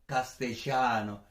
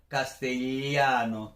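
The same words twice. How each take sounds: First: The double L is said the Argentine way. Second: The double L is said the traditional way. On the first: "si eres de Argentina, pues lo pronunciarías ... sería algo parecido a castellano" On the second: "como tradicionalmente se debe pronunciar la doble L"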